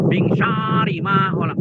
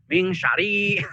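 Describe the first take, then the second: First: "Min syarri ma khalaq" with the rr held and doubled; correct reading with shadda. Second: "min syarri" with a single short r; wrong reading without shadda. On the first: Teacher giving the right recitation, held rr. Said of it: "Tapi harusnya tasdid". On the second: Teacher imitating a common misreading, light r. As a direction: say "syarri" as sari, no doubled r. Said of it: "Ini banyak yang membacanya". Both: Shown as a demonstration.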